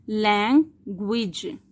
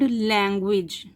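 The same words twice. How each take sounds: First: लैंग्वेज slowly in two beats, lang, gwej; split into syllables. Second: Said in the usual way. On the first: Shown as a demonstration. Teacher counting syllables, लैंग्वेज split slowly in two. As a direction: break लैंग्वेज after lang with a clear gap. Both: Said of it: "इसके कितने syllable हैं?".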